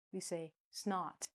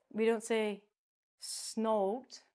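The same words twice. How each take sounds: First: Snot said with a short ah as in not; soft, slow snot rhyming with not; right short snot. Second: Snot said as snote with a long o; rising wrong snote. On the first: Teacher showing students the right vowel, snot like not. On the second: Teacher showing students the wrong vowel, snote. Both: Shown as a demonstration.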